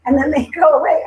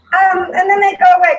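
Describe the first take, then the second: First: Said in the usual way. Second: Higher and louder, voice catching with real tears; choked-up real crying, pitched up; tearful. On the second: Real, not acted. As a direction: push through the tears on the words. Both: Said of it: "I'm still crying".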